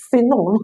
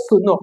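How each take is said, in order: First: "Sino" with an ee in the first syllable; correct pronunciation. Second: "Suno" with oo in place of ee; wrong pronunciation. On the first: Teacher giving learners the right word, "Sino" said see-no. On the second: Teacher laughing at the slip, "Suno" said soo-no. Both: Shown as a demonstration. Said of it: "not Suno".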